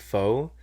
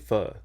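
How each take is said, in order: First: It does not sound like a clipped 'fuck'. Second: It sounds like a clipped, cut-off 'fuck'. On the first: The speaker calls it wrong. "I grew up saying pho, uh, so I often say it wrong" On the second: The speaker calls it right. "It's actually pho"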